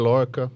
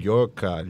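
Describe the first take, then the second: First: The first sound is a plain L. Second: The first sound is a Spanish-style double L. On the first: This is how people in Brazil often say it. "o pessoal come um L mesmo" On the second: This is how the name sounds in Spanish. "espanhol tem uma frescura de uma mordida na língua"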